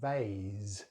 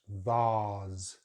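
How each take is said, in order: First: It has a different vowel and ends in s. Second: It has a long 'ah' vowel and ends in z. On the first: "they use an S sound at the end" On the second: "it's a Z sound at the end"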